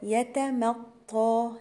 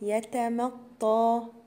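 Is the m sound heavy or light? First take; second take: light; light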